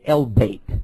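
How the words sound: The word begins with an 'el' sound. This is the form used in North Africa. "if you go to Northern Africa, they say El-Bait"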